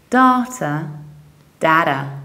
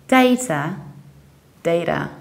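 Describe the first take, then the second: No difference in how they are said.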